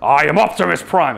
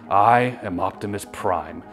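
First: The voice sounds harsh and forceful, not gentle. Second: The voice sounds powerful but gentle and warm. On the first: The speaker calls it wrong. "at first he's like" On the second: The speaker calls it right. "this is a powerful but gentle masculine figure"

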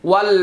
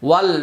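Both takes have the same delivery.

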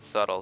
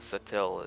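First: It sounds like the English word subtle. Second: It does not sound like the word subtle. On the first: The speaker calls it wrong. "Not subtle" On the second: The speaker calls it right. "Sutil is something like it's got a weird pronunciation"

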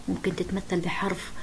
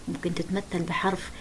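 Both takes have the same delivery.

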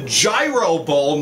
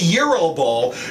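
First: Gyro is said the plain English way. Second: Gyro is said the Greek way. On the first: The speaker calls it right. "this is the Gyro Bowl, ... you don't have to be Greek to pronounce it" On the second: The speaker calls it wrong. "not the Gyro Bowl"

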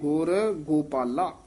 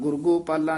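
First: The two words are slightly separated. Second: The two words are run together as one. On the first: The speaker calls it right. "ਥੋੜਾ ਜਿਹਾ ਨਖੇਰ ਕੇ ਪੜਨਾ ਹੈ" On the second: The speaker calls it wrong. "ਗੁਰਗੋਪਾਲਾ ਨਹੀਂ ਕਹਿਣਾ"

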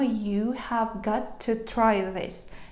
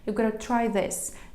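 First: Have got to is said as separate words. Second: Have got to is merged into gotta.

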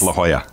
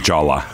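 First: The name is said with its Spanish pronunciation. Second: The name is read as English spelling suggests. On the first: The speaker calls it right. "but it's La Jolla" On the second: The speaker calls it wrong. "Looks like La Jolla to the native English speaker"

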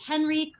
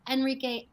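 First: The name begins with an audible H sound. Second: The name begins directly with a vowel sound. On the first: "Do you pronounce the H?" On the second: "Do you not?"

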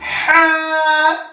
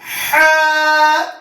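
First: It is said with a pressed, throaty h sound. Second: It is said with a pressed, throaty h sound.

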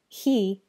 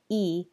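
First: The word starts with an h sound. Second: The word starts without an h sound. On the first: "he can sound like e" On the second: "he can sound like e"

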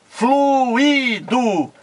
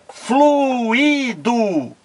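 No difference in how they are said.

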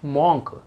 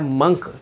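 First: The vowel sounds like 'aw'. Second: The vowel sounds like 'uh'. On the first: The speaker calls it wrong. "This is not मॉन्क" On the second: The speaker calls it right. "इसको पढ़ना क्या है, मंक"

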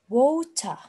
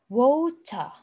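No difference in how they are said.

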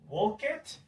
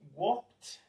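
First: The ending is an extra 'id' syllable. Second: The ending is a short sound, no extra syllable. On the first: The speaker calls it wrong. "We never say it. Walk it, incorrect" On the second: The speaker calls it right. "Then we have specific pronunciations for this"

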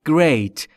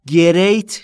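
First: G and R are joined with no vowel. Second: An extra vowel is added between G and R. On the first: The speaker calls it right. "بین G و R صدایی وجود نداره" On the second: The speaker calls it wrong. "great نیست"

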